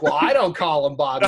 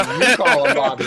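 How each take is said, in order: First: Loud, protesting stress on "I". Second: Loud, pointed stress on "You". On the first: Friend objects to the nickname, punching "I". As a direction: lean hard on "I" against the other person. Retold contrast of I and you. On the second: Friend hands the nickname back, punching "You". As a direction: throw the weight onto "You". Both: Retold or imitated.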